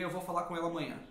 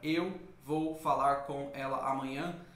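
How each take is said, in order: First: The words are linked into one smooth stream. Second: Each word is said separately with breaks. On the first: The speaker calls it right. "Quase vira uma coisa só" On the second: The speaker calls it wrong. "se você fosse falar isoladamente cada palavra"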